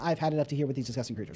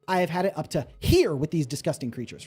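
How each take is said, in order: First: Every word is given the same even weight. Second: The emphasis varies strongly across the words. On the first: The speaker calls it wrong. "everything is flavored the same way, is very straightforward" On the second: The speaker calls it right. "This sentence should be"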